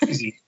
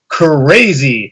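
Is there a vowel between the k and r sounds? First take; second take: no; yes. First: The k and r sounds join with no vowel. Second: A short schwa separates the k and r sounds. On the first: "So we have crazy" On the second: "if you put the schwa in the beginning"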